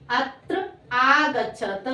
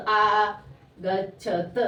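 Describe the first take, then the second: First: Said in the usual way. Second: आगच्छत very slowly, each syllable apart. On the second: Shown as a demonstration. Teacher dictating to pupils, आगच्छत slowly syllable by syllable. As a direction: sound out आगच्छत in long separate syllables.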